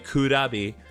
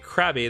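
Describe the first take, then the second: First: It is said with Japanese pronunciation, three syllables. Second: It is said with English pronunciation, two syllables. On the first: "they would say Kurabi" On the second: "Japanese wouldn't say Krabby"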